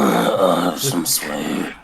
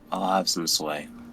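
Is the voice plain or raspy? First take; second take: raspy; plain. First: It is said in a slow, raspy voice. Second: It is said in a plain, normal voice. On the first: The speaker calls it right. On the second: The speaker calls it wrong.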